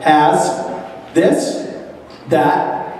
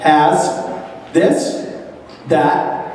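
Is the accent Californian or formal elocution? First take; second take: Californian; Californian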